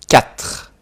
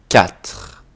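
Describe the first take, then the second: No difference in how they are said.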